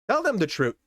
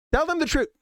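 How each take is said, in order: First: A touch of urgent inner voice, slightly higher; inner voice urging. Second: Much higher, pleading insistence; inner voice insisting. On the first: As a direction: let the conscience nudge you. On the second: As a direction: plead it harder this time. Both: Retold or imitated. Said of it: "a hitch that was telling me".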